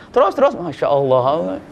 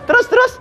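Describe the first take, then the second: First: "Terus, terus, masya Allah" slow and drawn out, murmured like a lullaby; "Terus, terus" sung out slowly, half asleep; drowsy sing-song reply. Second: "Terus, terus" tossed off high and quick, like a half-listening husband; lazy "go on" reply. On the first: ("Terus, terus" diucapkan pelan dan panjang seperti bernyanyi) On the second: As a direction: chirp "Terus, terus" up high, barely paying attention. ("Terus, terus" diucapkan tinggi dan cepat, setengah mendengarkan) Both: Acted. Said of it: "kayak nyanyi saja".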